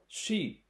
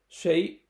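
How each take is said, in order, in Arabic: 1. يتبع صوت 'sh' حركة 'i'. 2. يتبع صوت 'sh' حركة 'a'. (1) "بكسر الشين" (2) "بفتح الشين"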